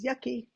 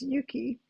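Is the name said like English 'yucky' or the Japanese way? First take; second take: English yucky; Japanese. First: The name sounds like the English word yucky. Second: The name is said with Japanese pronunciation. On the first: The name is misread from its spelling. The speaker calls it wrong. "I hope nobody looks at that and says yucky" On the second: The name is said as in its original language. The speaker calls it right. "the Japanese pronunciation is yuki"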